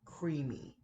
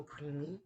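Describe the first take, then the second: First: CREAMY said slowly and carefully; slow down on CREAMY, sounding it out. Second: CREAMY said through the nose; nasal creamy. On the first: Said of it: "gonna have to slow it down". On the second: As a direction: let CREAMY go up into your nose. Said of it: "I say creamy in my nose". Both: Shown as a demonstration.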